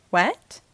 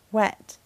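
First: Mild startled yell, rising sharply; surprised outburst, only slightly raised; yelled question. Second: Said in the usual way. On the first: A narrator's reading. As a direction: blurt it as a shocked question. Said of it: "Sarge yelled". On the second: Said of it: "he said in a low voice".

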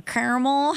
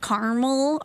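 First: Second "caramel" as CARE-uh-mul; mimicking "caramel" the other way, as CARE-mul; imitated alternative caramel. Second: First "caramel" as CAR-mul; mimicking "caramel" with the middle vowel dropped; imitated pronunciation of caramel. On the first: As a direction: copy "caramel" with a CARE first syllable. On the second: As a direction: copy "caramel" in two syllables, CAR-mul. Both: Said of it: "however you said that".

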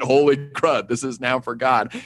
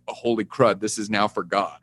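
First: "Holy" given the weight, "crud" lighter; weight on "Holy", rest falling away; stress on holy. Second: Said in the usual way. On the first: Shown as a demonstration. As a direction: lean hard on "Holy" in "Holy crud". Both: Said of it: "Emphasis on the word holy".

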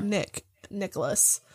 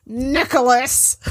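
First: Soft calling voice; quiet call. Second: Slow, louder shout of a name; loud call. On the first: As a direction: call his name softly. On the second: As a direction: call out to wake him. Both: Acted. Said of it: "I'm like".

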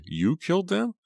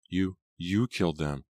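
First: Very high, rising disbelief; mock his claim with a soaring question; scornfully incredulous, pitched way up; scornful cry. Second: Faltering, understated disbelief; halting, mildly stunned realization. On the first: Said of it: "she cried". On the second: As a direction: repeat the first word, stunned. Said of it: "in a tiny voice". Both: A narrator's reading.

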